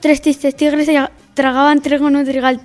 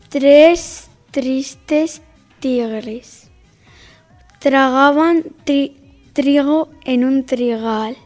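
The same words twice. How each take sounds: First: The sentence is spoken at a fast pace. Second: The sentence is spoken at a slow pace. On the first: "Rápido"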